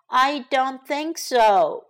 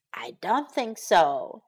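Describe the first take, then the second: First: I in "I don't think so" hit first and hard, then slow; slow, stressed I. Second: Said in the usual way. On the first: Shown as a demonstration.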